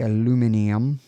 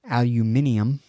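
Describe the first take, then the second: First: It is said the American way, four syllables. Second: It is said the British way, five syllables.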